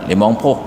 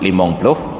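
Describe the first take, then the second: First: The second word begins with a plain p. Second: The second word begins with a pl cluster. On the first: A regional speaker drops the l sound. The speaker calls it wrong. "karena beliau Aceh Selatan" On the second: This is the standard form. The speaker calls it right. "seharusnya limong ploh itu disebut limong ploh"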